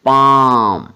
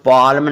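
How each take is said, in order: First: The L is silent. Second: The L is pronounced. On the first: The speaker calls it right. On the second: The speaker calls it wrong.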